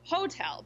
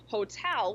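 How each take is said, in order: First: The stress is on the first syllable. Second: The stress is on the second syllable. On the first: The speaker calls it wrong. "so many learners say hotel because that's how it is in their language because it's a similar word with a different stress pattern" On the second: The speaker calls it right. "with the stress on the second syllable"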